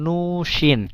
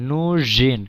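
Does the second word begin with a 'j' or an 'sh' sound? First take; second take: sh; j. First: The second word starts with a voiceless 'sh' sound. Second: The second word starts with a voiced 'j' sound. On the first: The speaker calls it wrong. "এখানে কিন্তু উচ্চারণটা এমন হচ্ছে না" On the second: The speaker calls it right. "এইটার উচ্চারণ কিন্তু জেই হচ্ছে"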